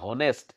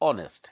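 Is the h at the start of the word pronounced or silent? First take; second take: pronounced; silent. First: The word begins with an audible h sound. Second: The word begins directly with a vowel sound. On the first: The speaker calls it wrong. "লিখোতে আচলতে হ'ব লাগে হনেষ্ট" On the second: The speaker calls it right. "উচ্চাৰণটো হৈছে কি অনেষ্ট, মানে এইচটো silent আছে"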